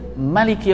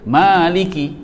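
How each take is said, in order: First: The first vowel is short, one beat. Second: The first vowel is held long, two beats. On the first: This is the reading of another recitation tradition. "pendek je" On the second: This is the reading of one recitation tradition. "itu dua dua harakat"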